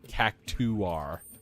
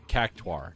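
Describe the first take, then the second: First: The ending is two syllables, 'too-ar'. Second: The ending is a single syllable, 'tar'. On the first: The speaker calls it wrong. "not cactuar" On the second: The speaker calls it right. "it should be cactuar"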